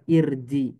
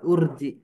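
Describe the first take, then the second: First: The word begins with an 'i' vowel. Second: The word begins with a 'u' vowel. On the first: The speaker calls it right. "Kenapa kita baca irji?" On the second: The speaker calls it wrong. "Kenapa enggak urji?"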